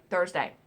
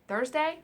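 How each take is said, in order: First: Thursday falling, firm and final; settled correction. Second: Thursday rising as if unsure; questioning tune. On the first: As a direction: land Thursday with a downward, certain tune. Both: Shown as a demonstration.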